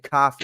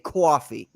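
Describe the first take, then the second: First: It is said in a Boston accent. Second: It is said in a Jewish New York accent.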